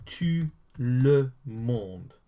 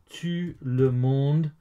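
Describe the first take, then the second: First: Slow model pronunciation. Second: Said in the usual way. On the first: Shown as a demonstration. Teacher introduces French for everyone, very slowly. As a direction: tout le monde very slow, word by word. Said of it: "now, everyone is". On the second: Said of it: "is everyone".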